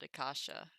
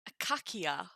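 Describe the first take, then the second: First: The word is said with English-style soft sounds. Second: The word is said with Greek-style hard k sounds. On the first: "I would guess we pronounce it acacia English" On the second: "the akakia Greek"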